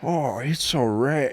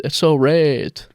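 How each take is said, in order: First: Slow put-on fake accent; mock Chinese accent. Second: Slow, light mock Chinese accent. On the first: Friend echoing the text, slow mock Chinese accent. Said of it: "an accent over text". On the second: Denying she'd ever write that, slow mock accent. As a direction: drag it out in a faint fake accent. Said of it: "I've said".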